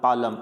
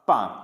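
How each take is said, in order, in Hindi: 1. l बोला जाता है। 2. l साइलेंट है।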